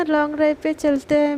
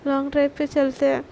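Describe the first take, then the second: First: Sarcastic agreement. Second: Said in the usual way. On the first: Retold or imitated. Angry Sana mocks the long-drive plan, sarcastic. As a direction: fake cheer with a bitter edge. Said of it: "सना की बातों से ही पता चल रहा होता है कि सना कितने ज़्यादा गुस्से में है".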